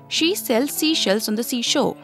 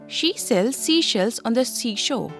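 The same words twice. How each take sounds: Both takes have the same delivery.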